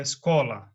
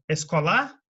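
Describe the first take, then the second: First: "escola" stressed as es-CO-la, falling after it; stress on middle syllable. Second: "escolar" stressed as es-co-LÁ, rising like a question; stress on last syllable. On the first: Teacher gives the right option, stress on CO of "escola". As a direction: lean on CO in "escola". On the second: Teacher asks which sounds right, stress on end of "escolar". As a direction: slowly push up onto the final LAR of "escolar". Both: Shown as a demonstration. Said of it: "você fala".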